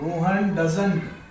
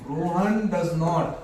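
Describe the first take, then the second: First: The negative is contracted into one word. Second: The negative is said as two full words. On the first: "चाहे डजंट कहिए" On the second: "चाहे डज नॉट कहिए"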